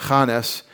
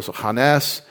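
First: Hanes said as HA-nes, stress on the first syllable and falling. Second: Hanes said as ha-NES, stress on the second syllable and rising. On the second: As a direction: put the weight on the end of Hanes, ha-NES. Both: Shown as a demonstration. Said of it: "the accent would be on the second syllable".

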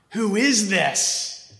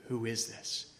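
First: Higher, slow, awed who is this; slow awed question, higher; amazed question. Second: Quiet wonder. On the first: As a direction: marvel at Jesus. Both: Shown as a demonstration.

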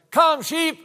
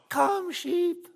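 First: Put-on high, loud, forceful kid's call; stronger boy's yell. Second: Put-on tiny high-pitched child's call; squeaky little-girl yell. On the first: Big brother calling sheep after his sister fails, strong high yell. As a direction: yell it strongly like an eight-year-old. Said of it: "he had a much stronger voice". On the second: Five-year-old girl calling sheep on the hillside, squeaky little yell. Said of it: "she, in her squeaky little voice, yelled".

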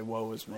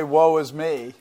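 First: "Woe is me." much softer, sagging into a mopey sigh. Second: Said in the usual way. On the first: Shown as a demonstration. Preacher showing wordless grumbling, soft mopey sigh. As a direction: let "Woe is me." fade out limply. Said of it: "You can just do things slowly". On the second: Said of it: "lots of different ways to say".

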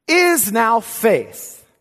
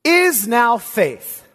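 First: Slow, deliberate echo; woodenly repeated. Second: Slow, word by word; read woodenly. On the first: Preacher repeats the wooden phrasing to the church, slowly. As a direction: say it again, very slow. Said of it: "reads very woodenly". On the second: Preacher reading the Greek order aloud, wooden and slow. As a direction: lay out each word stiffly, very slow. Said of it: "It actually reads very woodenly". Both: Shown as a demonstration.

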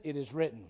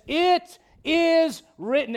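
First: Much lower and softer, settled and sure; Jesus calmly answering the devil; calm authority. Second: Slow, loud and high, every word weighed; preacher thundering the scripture; emphatic proclamation. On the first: Retold or imitated. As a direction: answer without raising a finger. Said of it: "You know what he says?". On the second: Acted. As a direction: declare it like a verdict.

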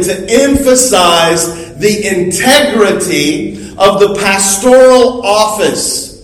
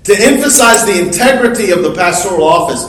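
First: Emphasize the integrity of the pastoral office, each word given weight; weighty emphasis. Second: Fast, light repeat of the same phrase; quick restatement. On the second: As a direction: run through it quickly as a recap. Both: Real, not acted. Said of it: "and even more importantly".

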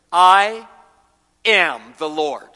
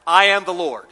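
First: "I" punched loud, "am the Lord" drawn out slowly; emphatic declaration. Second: "I" stressed loud, "I am the Lord" said at a steady pace; emphatic declaration. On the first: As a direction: proclaim "I am the Lord" slowly, weight on "I". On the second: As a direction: declare "I am the Lord" firmly, leaning on "I". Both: Acted.

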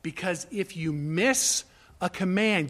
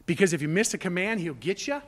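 First: Said in the usual way. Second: Quick, questioning guess at the wrong reason; mock question. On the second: Preacher voicing the wrong reason to obey, quick mock question. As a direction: toss it out fast as a doubtful question.

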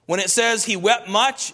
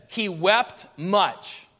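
First: Said in the usual way. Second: Each word dragged out in sorrow; a mild mournful slow reading; slow, heavy grief. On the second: Shown as a demonstration. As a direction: let "He wept much" sink slowly, mournful. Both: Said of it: "it means this".

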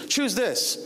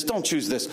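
First: Higher-pitched, emphatic urging; urged choice. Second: Understated warning off the option; dismissed choice. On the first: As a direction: push them eagerly toward this option. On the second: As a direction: steer them away without raising the voice. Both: Retold or imitated. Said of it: "I feel like he's really saying".

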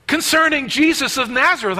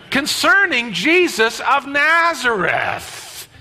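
First: Higher-pitched exasperated reply; irritated. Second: Slow, high, drawn-out irritation; exasperated, stating the obvious. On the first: Cleopas answering the stranger's question, irritated. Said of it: "I can actually see the irritation". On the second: Cleopas telling the stranger what is so obvious, exasperated. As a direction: spell it out slowly for a lunkhead. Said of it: "It's so obvious". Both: Acted.

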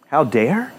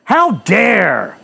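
First: Said in the usual way. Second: Mock outrage. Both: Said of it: "How dare they tell a woman".

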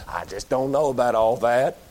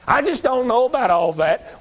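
First: Low, grudging mumble of a doubter; lightly mocking a hard-headed listener. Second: Higher, whiny put-on doubter; hammed-up whining skeptic; mocking whine. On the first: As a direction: mutter it like a stubborn skeptic. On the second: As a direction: whine it back at the hard-headed. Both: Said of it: "repeated mock of listener".

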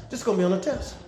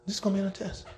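First: Softer, hammering the point home; quiet repeat. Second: Much softer, almost confiding; hushed emphatic repeat; quieter repeat. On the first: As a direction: drop the voice and repeat it. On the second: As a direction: let it sink in, hushed. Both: Shown as a demonstration. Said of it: "It's worth repeating".

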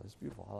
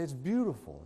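First: Hushed fond echo; a quiet second take of the praise; soft echo. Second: Said in the usual way. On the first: Shown as a demonstration. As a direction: repeat it much softer, almost to yourself. Repeats praise softly.

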